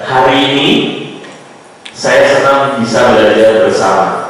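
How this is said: It has pauses and a suitable tempo. The speaker calls it right. "sudah menggunakan tempo yang sesuai. Ada jeda"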